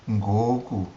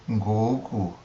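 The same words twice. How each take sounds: No difference in how they are said.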